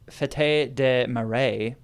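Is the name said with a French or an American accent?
French. It is said with a French-style accent.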